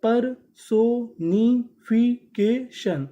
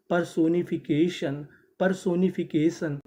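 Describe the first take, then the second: First: Very slow, louder परसोनिफिकेशन, each syllable held; drawn-out model word. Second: Said in the usual way. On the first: Shown as a demonstration. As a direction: spell out परसोनिफिकेशन slowly and clearly. (बहुत धीरे खींचकर परसोनिफिकेशन) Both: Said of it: "तो meaning क्या बनी?".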